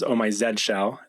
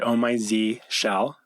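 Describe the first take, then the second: First: The name is said the British way. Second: The name is said the American way. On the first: "for our European friends uh, or English friends" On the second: "I pronounce it"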